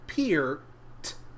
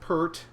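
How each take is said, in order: First: The vowel sounds like the word ear. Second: The vowel sounds like the er sound. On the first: The speaker calls it right. "pronounced Peart, like ear" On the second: The speaker calls it wrong. "it's not pronounced Pert"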